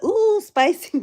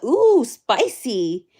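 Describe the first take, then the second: First: High, excited ooh spicy; squealed ooh spicy. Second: Slow stretched ooh spicy; drawn-out ooh spicy. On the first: Streamer rereads her chat comment after the judge's clapback, squealing with delight. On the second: Streamer reads her own chat comment, slow and teasing. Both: Retold or imitated.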